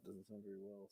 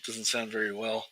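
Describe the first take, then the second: First: Very faint, far softer mic sound; badly adjusted mic. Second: Treble-heavy demo at normal volume; high-end mic sound. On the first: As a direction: voice dropped right down in volume. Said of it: "Especially like that". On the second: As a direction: voice with the treble turned up. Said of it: "real high end". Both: Shown as a demonstration.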